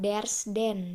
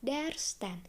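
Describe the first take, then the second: First: The second word starts with a soft d sound. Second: The second word starts with a hard t sound. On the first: The speaker calls it wrong. "bukan there's then ya, karena tidak harmoni, nggak enak dibaca" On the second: The speaker calls it right. "jadinya adalah there's ten"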